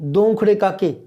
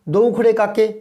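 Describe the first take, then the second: Both takes have the same delivery.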